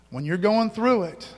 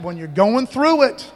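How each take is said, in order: First: Said in the usual way. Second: Slow, loud, stressed THROUGH; drawn-out preaching emphasis; slow emphatic. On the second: Shown as a demonstration.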